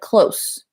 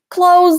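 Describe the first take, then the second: First: It sounds different from the word clothes. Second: It sounds the same as the word clothes. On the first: It means near or emotionally intimate. "if you use it as an adjective, like close ... That's different" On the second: It means to shut something. "It's the same pronunciation as close"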